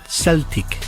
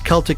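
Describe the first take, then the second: First: The word begins with an S sound. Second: The word begins with a K sound. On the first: This is the later pronunciation adopted from French. "the French got a hold of the word in the eighteenth century and pronounced it Celtic" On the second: This is the original ancient pronunciation. "It was Celtic in the Greek and the Latin pronunciation"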